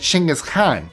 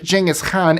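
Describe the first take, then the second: First: The name has its native Mongolian pronunciation. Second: The name has its familiar English pronunciation. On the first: "That's how it's pronounced in Mongolian" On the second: "yes, I am pronouncing it that way"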